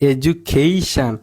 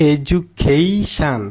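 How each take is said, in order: No difference in how they are said.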